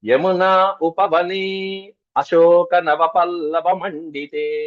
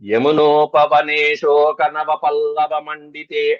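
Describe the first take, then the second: First: The words are separated with every vowel sounded. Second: The words run together with the vowel merged. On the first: "విడతీస్తే" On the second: "కలిపి ఏక సమాసంగా చదవాలి"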